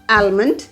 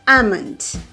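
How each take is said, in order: First: The L sound is pronounced. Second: The L sound is silent. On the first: The speaker calls it wrong. "It's not almond" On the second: The speaker calls it right. "it's almond. L should be silent"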